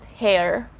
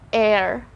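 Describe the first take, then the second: First: The word begins with an h sound. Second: The word begins without an h sound. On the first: The speaker calls it wrong. "and not hair" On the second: The speaker calls it right. "So we just say air"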